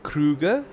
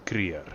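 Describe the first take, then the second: First: The name is given an English pronunciation. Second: The name is given an Afrikaans pronunciation. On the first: "English would be Kruger" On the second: "Afrikaans would be Kreer"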